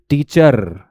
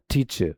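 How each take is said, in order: First: टीचर with a clear R at the end; rhotic wrong version. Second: टीचर with no R, ending in a soft schwa; silent R. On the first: Teacher showing students the wrong R-ending टीचर. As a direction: pronounce टीचर ending in a rolled R. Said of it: "टीचर नहीं होगा". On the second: Teacher showing students the British silent-R टीचर. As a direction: drop the R in टीचर. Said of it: "जो R है वो silent है". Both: Shown as a demonstration.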